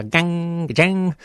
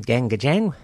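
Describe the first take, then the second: First: Twanging guitar-strum imitation, drawn out, higher; imitated guitar. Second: Said in the usual way. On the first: Shown as a demonstration. Host explaining the band's name, as a guitar sound. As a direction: stretch it out like ringing guitar chords. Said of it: "from the sound of a guitar".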